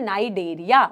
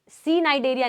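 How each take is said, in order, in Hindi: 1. यह शब्द सीधे N की ध्वनि से शुरू होता है। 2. इस शब्द की शुरुआत में C की ध्वनि उच्चारित होती है। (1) "हम बोलते हैं नाइडेरिया" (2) "सी नाइडेरिया नहीं बोलते"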